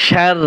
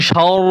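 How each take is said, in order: First: "শার" with a light, open "shar"; thin r. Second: "শার" with a dark, rounded "shawr"; heavy r. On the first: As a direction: keep the vowel and r of "শার" thin. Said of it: "পাতলা হচ্ছে শার". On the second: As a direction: thicken the vowel and r in "শার". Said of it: "আর মোটা হচ্ছে শার". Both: Shown as a demonstration.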